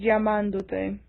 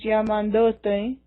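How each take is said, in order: First: The stress is on the second syllable. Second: The stress is on the third syllable. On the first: The speaker calls it right. "keep it with the same stress as the original participle" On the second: The speaker calls it wrong. "you don't want to pronounce this llamandote"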